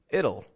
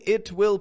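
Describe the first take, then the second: First: It is contracted into one word with a flap. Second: It is said as two full separate words. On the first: The speaker calls it right. "I'm saying it'll" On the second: The speaker calls it wrong. "I'm not saying it will pay off"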